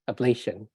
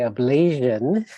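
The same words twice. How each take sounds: First: The ending sounds like the word 'nation'. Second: The ending does not sound like 'nation'. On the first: The speaker calls it right. "but it's ablation, like nation" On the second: The speaker calls it wrong. "some people say ablation"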